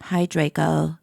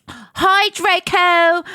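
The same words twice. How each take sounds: First: Low, downcast mock greeting; depressed voice. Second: High, drawn-out bright hello; cheery greeting, not depressed. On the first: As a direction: say hello as a mopey goth. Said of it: "I said in depressed voice". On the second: Acted. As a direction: call it out in a high, eager voice. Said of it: "oh, I said in depressed voice".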